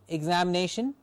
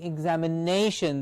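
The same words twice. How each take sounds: First: The stress falls on a syllable other than 'na'. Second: The stress falls on the syllable 'na'. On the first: The speaker calls it wrong. "I'm not saying examination" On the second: The speaker calls it right. "I'm saying examination. The nay gets the stress"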